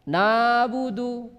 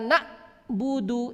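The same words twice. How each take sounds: First: The ain is too weak to hear clearly. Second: The ain is cut off like a glottal stop. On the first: "Ini tidak ada ain terdengar jelas. Ini juga salah" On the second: "ini salah karena dia memotong"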